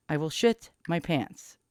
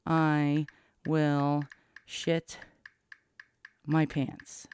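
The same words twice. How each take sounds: First: Said in the usual way. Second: Slow halting words while typing; typing dictation. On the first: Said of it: "I spelled pants wrong". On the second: Shown as a demonstration. Spelling out a text to his daughter, slow and halting. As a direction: drag it out word by word, pausing as you type. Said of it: "Let me type".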